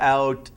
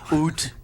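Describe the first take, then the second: First: The vowel is a plain standard 'ow' sound. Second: The vowel sounds close to 'oot', Canadian-style.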